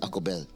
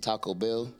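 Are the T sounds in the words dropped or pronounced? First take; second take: Dropped; Pronounced. First: The T sounds are left out. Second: The T sounds are clearly pronounced.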